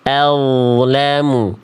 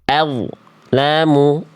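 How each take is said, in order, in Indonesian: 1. Bunyi mengalir dari 'al' ke 'lamu' tanpa celah. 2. Bunyi berhenti dengan celah hening setelah 'al'. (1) "bunyi al-nya ini diantar sampai menyongsong huruf berikutnya" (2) "Jadi nggak dibaca al, lamu, antara bunyi al dengan bunyi la tidak boleh ada jeda hening"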